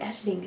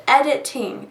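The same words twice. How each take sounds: First: "Editing" said softly, falling, as a test; softly testing "Editing" once more; quiet retry. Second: Sounding out "editing" to test it; careful editing. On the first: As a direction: mutter "Editing" to hear how it sounds. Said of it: "It sounds so weird". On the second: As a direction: try "editing" again, clearly. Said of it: "Am I saying that right?". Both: Shown as a demonstration.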